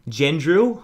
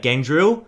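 First: "Gendrill" with a soft g, like JEN-drill; unsure "Gendrill", soft opening g; soft G attempt. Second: "Gandrill" with a hard g as in gas; unsure "Gandrill", hard opening g; hard G attempt. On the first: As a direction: try "Gendrill" starting with a j sound, questioning. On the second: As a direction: try "Gandrill" starting GAN, questioning. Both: Shown as a demonstration. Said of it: "How do you pronounce that?".

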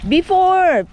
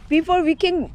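First: Loud, high calling out; yelling across the room. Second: Said in the usual way. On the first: Real, not acted. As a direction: call it across to them. Telling the kids across the beach.

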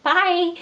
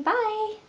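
First: High, louder granny bye; elderly singsong. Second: High quavery granny goodbye; old granny voice. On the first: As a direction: sing it out like a granny. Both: Pretend. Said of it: "Sound like an old granny".

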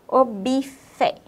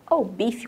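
First: "bifé" slowly, ending in a clear open E; spelling pronunciation. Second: "bife" run together, ending in an I sound; everyday pronunciation. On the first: Teacher showing children the written vowel, slow spelling pronunciation. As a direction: sound out "bifé" as written, bi then fé. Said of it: "como a gente fala rápido, mas é com a vogal E". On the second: Teacher showing how we say it fast, everyday "bifi" pronunciation. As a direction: say "bife" as in quick speech, like bifi. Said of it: "como a gente fala rápido". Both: Shown as a demonstration.

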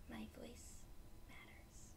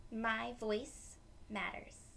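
First: "My voice matters" in a soft unvoiced whisper. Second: Said in the usual way. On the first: Shown as a demonstration. Teacher whispering the affirmation to kids. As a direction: whisper it back like a secret. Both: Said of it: "And repeat after me".

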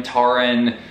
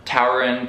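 First: Tauren said TAR-en, first syllable like "tar"; alternate name pronunciation. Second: Tauren said like TOW-er-en; unsure name pronunciation. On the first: Reader unsure of this guy's name, trying Tauren as TAR-en. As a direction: Tauren with an open AH, no OW glide. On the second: Reader unsure of this guy's name, trying Tauren as TOW-ren. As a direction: Tauren with an OW in the first syllable. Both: Shown as a demonstration. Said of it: "don't know how to say".

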